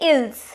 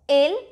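First: The final s sound is pronounced. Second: The final s sound is silent. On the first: The speaker calls it wrong. "we don't say ills, no" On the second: The speaker calls it right. "Ils is ill"

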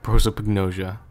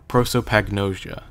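First: The word is said quickly with 'pag' cut short. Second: The word is said fully with every syllable clear. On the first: "when I say it quickly ... I just kind of cut it off" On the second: "I remember from the remake, it's like"

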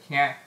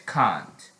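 First: It is said with an American accent. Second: It is said with a British accent. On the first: "American English can't" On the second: "British English, you say is can't"

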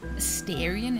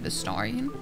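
First: The name is said with an American pronunciation. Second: The name is said with a non-American pronunciation. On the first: The speaker calls it wrong. "he also says Astarian" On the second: The speaker calls it right. "instead of Astarian"

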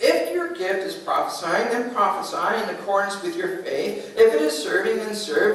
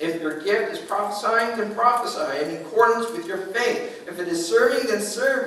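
Both takes have the same delivery.

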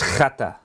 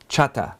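First: It begins with a rough throaty rasping sound. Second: It begins with a ch sound as in church. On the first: The speaker calls it right. "say it like you're going to spit" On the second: The speaker calls it wrong. "it's not a ch, it's not ch, as people pronounce it. It's not chata"

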